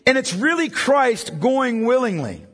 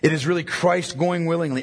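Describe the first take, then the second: First: It is said more slowly. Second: It is said at a normal, quicker pace.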